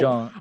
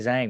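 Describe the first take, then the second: First: The name is said with its Mandarin pronunciation. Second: The name is said with an anglicized pronunciation. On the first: "in Mandarin is" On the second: "I just say Zhang"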